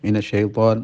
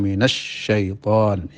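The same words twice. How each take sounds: First: The doubled sh sound is pressed weakly. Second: The doubled sh sound is pressed firmly. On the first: The speaker calls it wrong. "kurang menekan" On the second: The speaker calls it right. "mestinya minasyaiton"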